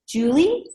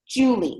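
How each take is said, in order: First: The pitch rises at the end of the name. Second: The pitch falls at the end of the name. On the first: It politely asks permission to interrupt. "so our voice goes up" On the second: It sounds assertive and self-assured. "I say it as a statement"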